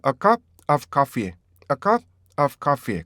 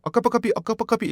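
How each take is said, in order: First: "A cup", pause, "of coffee", very slow; split reading. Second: "A cup of coffee" all run together with no break; linked, wrong way. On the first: Teacher demoing the right split version. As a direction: break "A cup of coffee" after "cup", slowly. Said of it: "이걸 한번 분리해보세요". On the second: Teacher showing the wrong linked version. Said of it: "붙여놓으니까 이게 주어라고 해결이 안 되는 거예요". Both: Shown as a demonstration.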